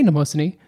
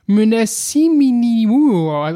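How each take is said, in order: First: The opening M is not clearly pronounced. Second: The opening M and N are both pronounced hard.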